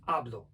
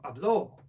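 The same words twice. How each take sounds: First: The stress is on the first syllable. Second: The stress is on the last syllable. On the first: I speak, in the present tense. "akcent na pierwszą" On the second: He spoke, in the past tense. "no to jest już przecież czas przeszły trzeciej osoby"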